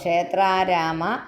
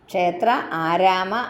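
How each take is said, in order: First: The two words merge into one long vowel. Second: The two words are said as separate words.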